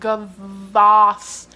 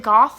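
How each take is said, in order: First: The name has a V sound in the middle. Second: The name has no V sound in the middle. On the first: The speaker calls it right. "if you pronounce it Gavoth" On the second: The speaker calls it wrong. "did you mistake the V? It's not a silent V"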